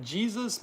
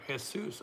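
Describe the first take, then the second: First: Jesus said the English way, JEE-zus; English pronunciation. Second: Jesus said the Spanish way, heh-SOOS; Spanish pronunciation. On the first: Streamer reading a viewer's name, Jesus as English JEE-zus. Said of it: "or is it Jesus". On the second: Streamer guessing a viewer's name, Jesus as Spanish heh-SOOS. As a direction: say Jesus with an H sound, stress at the end. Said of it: "Jesus Montes". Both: Shown as a demonstration.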